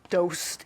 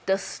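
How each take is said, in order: First: The vowel sounds like the one in 'ghost'. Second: The vowel sounds like the one in 'dust'. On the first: The speaker calls it wrong. "you don't say dost" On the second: The speaker calls it right. "it's dust"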